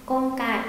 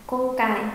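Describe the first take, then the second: The two takes are said the same way.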